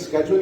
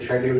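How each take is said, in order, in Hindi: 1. यह शब्द 'sk' ध्वनि से शुरू होता है। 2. यह शब्द 'sh' ध्वनि से शुरू होता है। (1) "अमेरिकन स्केड्यूल कहते हैं" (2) "ब्रिटिश को शेड्यूल कहते हैं"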